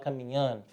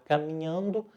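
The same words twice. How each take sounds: First: The word ending is clipped off. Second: The word ending is pronounced in full. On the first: This is how speakers from central Minas say it. "o mineiro tende a falar comendo o final da palavra" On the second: This is how speakers from other states say it. "Em vez de falar"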